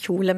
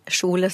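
First: It begins with a soft, hissy 'ich'-like sound. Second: It begins with a 'sh' sound. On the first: "ikke sier kjole" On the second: "men kjole, som å bruke sjokoladelyden først i ordet"

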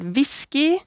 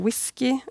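First: It begins with a v sound. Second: It begins with a w sound. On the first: "De får ofte enkelt-v-lyder i norsk. Så vi sier jo for eksempel whisky" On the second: "ikke whisky"

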